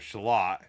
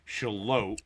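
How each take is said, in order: First: The name ends with a short 'lot' sound. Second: The name ends with a long 'lote' sound. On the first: The speaker calls it wrong. "or Shalot" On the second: The speaker calls it right. "we made sure that we learned the name of the town"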